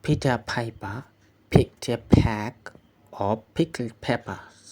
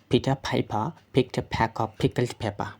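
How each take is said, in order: First: The phrase is read slowly and carefully. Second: The phrase is read quickly and fluently. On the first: "আমি প্রথমে slowly পড়ব" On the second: "এখন firstly আমি পড়ব"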